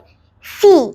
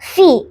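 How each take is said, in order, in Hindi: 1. स्वर गले से खींचा हुआ है। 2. स्वर छोटा और सादा है। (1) "थोड़ा गले से खींच कर बोल रही हूँ" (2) "फर्स्ट फी है"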